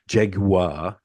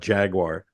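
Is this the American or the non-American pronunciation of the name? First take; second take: non-American; American. First: It is said with a non-American pronunciation. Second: It is said with the usual American pronunciation. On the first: The speaker calls it right. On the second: The speaker calls it wrong.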